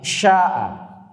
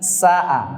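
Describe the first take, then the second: First: It begins with an sh sound. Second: It begins with a plain s sound. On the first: It means will or wish. The speaker calls it right. "tapi sya'a" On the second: It means evil or badness. The speaker calls it wrong. "Bukan sa'a"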